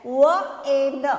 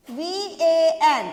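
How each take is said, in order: First: व ए न slowly, each as a sound; letter sounds. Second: वी ए एन slowly by letter names, getting louder; spelling aloud. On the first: Teacher showing Hindi sounds, व ए न loud and sound by sound. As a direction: sound out व ए न loudly, not the letter names. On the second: Teacher spelling for children, वी ए एन loud and letter by letter. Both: Shown as a demonstration. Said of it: "Hindi में वी का क्या हो गया".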